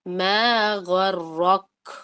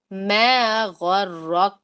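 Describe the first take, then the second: First: ما غرک stretched slowly with the ک said dark, lips not spread; wrong take, no smile. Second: ما غرک stretched slowly with lips spread so the ک stays thin; right take, smiling face. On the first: Teacher shows students the wrong ما غرک without smiling face. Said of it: "دیکھیں کیا آواز بنے گی". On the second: Teacher shows students correct ما غرک with a smile. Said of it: "آپ نے اسمائلی face لازم بنانا ہے". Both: Shown as a demonstration.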